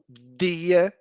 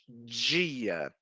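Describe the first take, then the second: First: The word begins with a plain d sound. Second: The word begins with a j-like sound. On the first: This is not how speakers of the local accent say it. "e não dia" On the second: This is how speakers of the local accent say it. "porque nós falamos dia"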